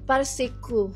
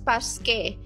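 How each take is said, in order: First: It is said with three syllables, par-si-ku. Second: It is said with two syllables, pas-ke. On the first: The speaker calls it wrong. "Dati, minabasa ko yan as parsiku" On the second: The speaker calls it right. "actually, binabasa as Paske"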